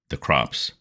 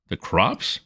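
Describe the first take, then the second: First: Crops said as a flat falling statement, "The crops.". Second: "The crops?" as a rising, puzzled question. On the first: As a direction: state "The crops." flatly, pitch falling at the end. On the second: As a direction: echo it back, rising on crops. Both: Acted.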